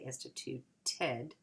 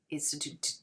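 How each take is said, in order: First: The ending is said as a separate syllable. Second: The ending is not a separate syllable. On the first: The speaker calls it right. "you have to say instituted" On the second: The speaker calls it wrong. "we can't say institute. Institute. it doesn't. It doesn't work"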